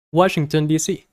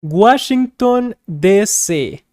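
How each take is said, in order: First: Said in the usual way. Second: Spanish accent. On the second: Shown as a demonstration. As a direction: say "Washington" like a Spanish speaker, a bit slowed. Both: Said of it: "we kind of use a Spanish accent".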